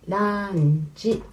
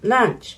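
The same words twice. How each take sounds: First: It is pronounced as a Japanese katakana word. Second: It is pronounced the English way. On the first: "we say lunch" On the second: "in English maybe lunch"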